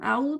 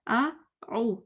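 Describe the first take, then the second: First: The two vowels run together without a break. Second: A short break separates the two vowels.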